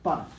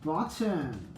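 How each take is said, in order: First: The t is reduced as in casual speech. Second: The t is pronounced fully and carefully. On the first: "in like normal speech" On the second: "not uh, talking emphatically like I am right now"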